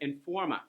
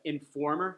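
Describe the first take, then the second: First: The word ends with an uh sound. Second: The word ends with an r sound. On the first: "uses the schwa sound in place of er" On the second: "Instead of informer"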